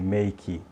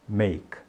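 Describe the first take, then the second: First: It ends with an added short 'ee' vowel. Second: It ends abruptly on the K consonant. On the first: The speaker calls it wrong. "É pronunciar esse E como se fosse I. Então a gente diz assim" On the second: The speaker calls it right. "você para na consoante, no K"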